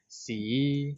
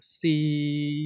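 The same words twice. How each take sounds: First: The pitch starts low and rises upward. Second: The pitch stays level at a middle height. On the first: "low rising C" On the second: "and then middle C"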